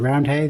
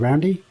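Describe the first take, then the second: First: The last syllable is a full 'hay' sound. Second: The last syllable is reduced to 'ee'. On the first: This is how outsiders say the name. "they don't pronounce it Roundhay" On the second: This is how locals say the name. "they say Roundy, which is, I mean, it's just the colloquialism"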